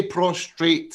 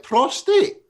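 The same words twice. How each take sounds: First: "prostrate" with an R after the t, slowly; "prostrate", pros-trate, R sounded in the middle; wrong pronunciation. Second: Prostate said with no R, high rising; "Prostate", pros-tate, no R after the t; correct pronunciation. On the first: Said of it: "Don't say prostrate". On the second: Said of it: "I don't understand why you can't say it". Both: Shown as a demonstration.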